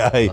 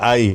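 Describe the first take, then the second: First: The name is spelled out as two letters. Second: The name is said as one syllable. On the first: The speaker calls it wrong. "hindi A I" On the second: The speaker calls it right. "ang pronunciation po yun na I"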